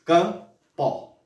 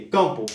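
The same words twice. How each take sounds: First: CAMPO as CAM, pause, PO; split into syllables. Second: Said in the usual way. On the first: Shown as a demonstration. Teacher proving two syllables, split word. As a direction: break "campo" into two separate voice impulses. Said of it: "porque eu pronunciei duas vezes". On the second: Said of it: "é um exemplo pra você começar a entender".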